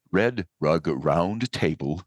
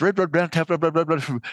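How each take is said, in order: First: Tongue twister taken slowly, word by word; slow right down and set each word apart; slow, careful enunciation. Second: High-pitched, rapid-fire tongue twister; tongue twister at speed. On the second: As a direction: race through it until the words tumble into each other. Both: Shown as a demonstration. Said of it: "say that three times fast".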